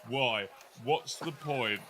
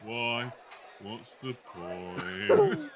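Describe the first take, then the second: First: It sounds like Marvin the paranoid android. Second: It is a put-on voice like Eeyore.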